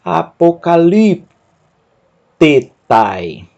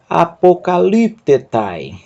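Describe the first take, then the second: First: Very slow, every syllable pulled apart. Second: Slightly slowed, whole word joined; slower joined read. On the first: Teacher sounds out a long Greek word very slowly. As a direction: break the word into pieces. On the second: Teacher rereads the word more fluently. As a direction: read it through as one word. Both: Shown as a demonstration. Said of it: "Eu vou ler com você".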